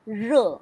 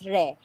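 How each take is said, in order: First: The vowel sounds like 'uh'. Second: The vowel sounds like 'eh'. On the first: The speaker calls it right. "It's r" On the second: The speaker calls it wrong. "we do not read that one as re"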